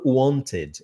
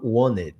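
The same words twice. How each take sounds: First: The middle T sound is clearly pronounced. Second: The middle T sound is dropped. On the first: "eu não falo wanted" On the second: "é comum a gente não falar o T nessa pronúncia"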